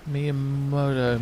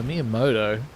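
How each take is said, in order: First: Slow, hammed-up mock Spanish drawl on Miyamoto. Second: Said in the usual way. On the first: Villagers calling the name Miyamoto in mock Spanish accent. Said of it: "generic Spanish".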